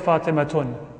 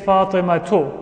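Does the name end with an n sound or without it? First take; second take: with n; without. First: The name ends in u followed by n. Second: The name ends in a plain u vowel. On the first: The speaker calls it wrong. "We don't say Fatimatun" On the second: The speaker calls it right. "We say Fatimatu"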